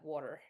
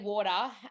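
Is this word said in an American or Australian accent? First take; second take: American; Australian. First: It is said in an American accent. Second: It is said in an Australian accent. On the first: "Americans say water, like water. You got to say the R at the end" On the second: "so we say water"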